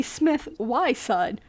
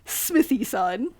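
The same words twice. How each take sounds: First: "Smith Y son" said slowly, with Y as the letter's name; expected pronunciation. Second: "Smithy son" said slowly, with an ee after Smith; actual pronunciation. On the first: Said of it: "Smith with a Y". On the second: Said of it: "and then an E in the middle". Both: Shown as a demonstration.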